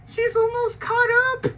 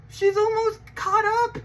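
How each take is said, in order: First: Even higher, bursting hype; very excited. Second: High excited announcement. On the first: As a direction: push the excitement to the top. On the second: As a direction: hype up the news. Hyped announcement about the show. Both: Real, not acted.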